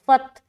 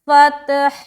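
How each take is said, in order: First: The word ends without any final h sound. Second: The word ends with an audible final h sound. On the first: The speaker calls it wrong. "गोया के हा को उसने अदा नहीं किया, जो कि बहुत गलत है" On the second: The speaker calls it right. "लेकिन हर्फ हा अदा होना चाहिए"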